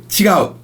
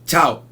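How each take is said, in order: First: The full Tokyo form is said with three syllables. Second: The shortened Kansai form is said with two syllables. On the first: "So in Tokyo, you'll say" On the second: "Kansai area, they'll say"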